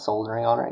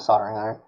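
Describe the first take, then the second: First: An L sound is heard in 'soldering'. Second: No L sound is heard in 'soldering'. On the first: The speaker calls it wrong. "It's not a soldering iron" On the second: The speaker calls it right. "It's a soldering iron"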